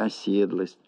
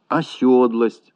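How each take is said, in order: First: Said in the usual way. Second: Slow «осёдлость» with stressed yo; stressed yo replacing e in «осёдлость»; mispronounced ОСЁДЛОСТЬ. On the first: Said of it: "вместо". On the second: Shown as a demonstration. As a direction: say «осёдлость» with yo in the second syllable. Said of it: "Всё это ошибки".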